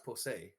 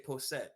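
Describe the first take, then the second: First: The final T is dropped and silent. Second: The final T is clearly sounded. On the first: The speaker calls it right. "make them soft, like they like the T's kind of falling off" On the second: The speaker calls it wrong. "you would say if you did, you say posset, but it's not"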